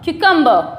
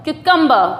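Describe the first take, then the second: Both takes have the same delivery.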